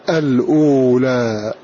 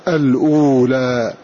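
Both takes have the same delivery.

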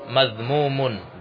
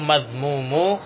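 First: The word ends in an -un sound. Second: The word ends in a bare -u sound. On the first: The speaker calls it right. "Yang benar adalah madhmumun, dia dengan tanwin" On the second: The speaker calls it wrong. "Di situ madhmumu. Ya, salah"

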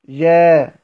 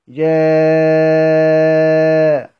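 First: The vowel before the hamza is held briefly. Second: The vowel before the hamza is held very long. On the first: "القصر" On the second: "والمد"

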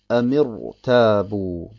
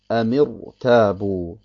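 The two takes are said the same way.

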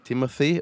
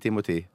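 First: The name is pronounced with English sounds. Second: The name is pronounced with Norwegian sounds. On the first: This is how the man's name is really pronounced. The speaker calls it right. "han heter Timothy" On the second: This is not how the man's name is pronounced. The speaker calls it wrong. "og ikke Timothy"

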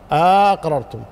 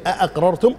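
First: The first vowel is lengthened and the second stop reduced. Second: Two distinct glottal stops are pronounced at the start. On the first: "بمد الهمزة الأولى واختلاس الثانية" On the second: "الهمزتين"

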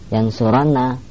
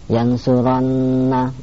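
First: The n sound is single and short. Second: The n sound is doubled and held long. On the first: The speaker calls it wrong. "nanya tidak bertasdid, ini salah" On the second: The speaker calls it right. "nunnya bertasdid"

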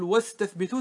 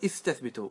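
First: The glottal stop is dropped after the linking sound. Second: The word starts with a pronounced glottal stop. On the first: The word is joined to a preceding particle. "وإذا جئت قبله بشيء تقول واستثبتوا، تسقط" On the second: The word begins the utterance. "فإذا بدأت به تقول استثبتوا"

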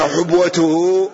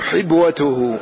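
First: The first syllable has a 'u' vowel. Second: The first syllable has an 'i' vowel. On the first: "بالضم" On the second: "والكسر"

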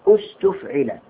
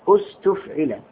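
The two takes are said the same way.

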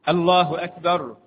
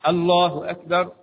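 Both takes have the same delivery.

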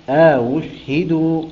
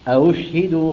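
First: A long alif sound separates the two hamzas. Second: No alif sound separates the two hamzas. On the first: "فإذا قرأها بالإدخال" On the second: "وإذا لم يقرأها بالإدخال"

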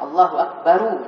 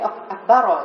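First: The word akbar ends with a u vowel. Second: The word akbar ends with an a vowel. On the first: The speaker calls it right. "Kalau disama, Allahu akbaru" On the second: The speaker calls it wrong. "Jangan jadi akbaro"

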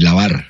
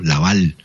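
First: The word ends with an R sound. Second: The word ends with an L sound. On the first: "en vez de decir lavar" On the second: "[name] cambia la R por L"

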